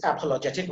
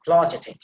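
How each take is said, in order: First: "apologetic" with every vowel, opening a included; common mispronunciation. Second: "apologetic" with the opening a dropped, like "plojetic"; corrected pronunciation. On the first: Teacher showing what we say, full first vowel in "apologetic". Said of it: "we say, but that is". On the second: Teacher contrasting it with what we say, swallowed first vowel in "apologetic". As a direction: start "apologetic" straight on the p. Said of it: "but that is apologetic". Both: Shown as a demonstration.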